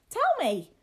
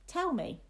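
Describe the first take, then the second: First: Put-on high, loud boyish demand; crying out. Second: High, firm little demand; insistent boy. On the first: A narrator's reading. Boy cries out to the retreating lad, high and loud. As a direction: burst out like an impatient young master. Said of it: "cried William". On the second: Acted. Boy demands the story from his companion, high and insistent. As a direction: demand it as a young master would.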